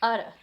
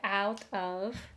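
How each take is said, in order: First: The vowel is a schwa with a tapped T. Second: The first vowel is a full 'ow' diphthong. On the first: "so it's utter" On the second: "Instead of going ow, like out of"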